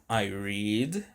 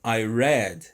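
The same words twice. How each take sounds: First: I read with read rhyming with need; present read. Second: I read with read rhyming with bed; past read. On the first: Teacher contrasts read said as "reed" with the past. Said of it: "eu leio". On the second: Teacher gives the past read said like red. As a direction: read said as "red", short e, a little louder. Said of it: "eu li ontem". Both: Shown as a demonstration.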